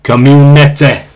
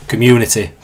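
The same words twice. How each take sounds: First: Slow, broad Yorkshire Community; drawn-out Yorkshire Community, ending in "te"; Yorkshire accent. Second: Said in the usual way. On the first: Shown as a demonstration. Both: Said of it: "That's that Yorkshire accent".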